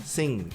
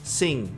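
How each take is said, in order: The two takes are said the same way.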